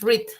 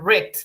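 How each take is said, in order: First: It is said with the present tense pronunciation. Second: It is said with the past tense pronunciation. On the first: The action happens now. "Read en pasado también es read" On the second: The action happened before. "solo que en pasado se dice read"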